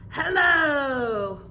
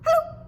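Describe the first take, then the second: First: It is said nicely and gently. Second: It is said quickly and hurriedly.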